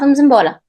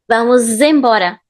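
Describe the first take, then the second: First: The linking z sound is light and natural. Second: The linking z sound is strongly exaggerated. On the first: "people just say this naturally" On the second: "I'm doing it very strong, so you can clearly hear the z sound"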